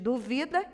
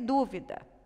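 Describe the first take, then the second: First: The stress is on the second syllable. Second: The stress is on the first syllable. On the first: It is a verb form. "eu não tenho nenhum acento na palavra duvida" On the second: It is a noun. "olha só a sílaba tônica aqui... proparoxítona"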